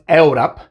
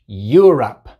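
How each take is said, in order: First: It begins with separate 'eh-oo' vowels. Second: It begins with a 'you' sound. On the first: The speaker calls it wrong. "No es Europe" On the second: The speaker calls it right. "es Europe"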